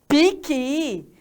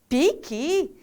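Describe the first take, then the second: First: The first vowel sounds like 'ee'. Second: The first vowel sounds like 'ee'.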